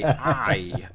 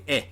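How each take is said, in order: First: The vowel is long, as in 'eye'. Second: The vowel is short, as in 'it'. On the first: This is the American way of saying it. "whereas Americans would say I" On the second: This is the British way of saying it. "I would say eh"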